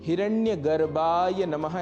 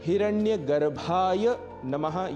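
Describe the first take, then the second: First: The bh sound is said without extra breath. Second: The bh sound is said with a strong breath. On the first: The speaker calls it wrong. "उच्चारण दोष के कारण" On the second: The speaker calls it right. "यह बोलना है"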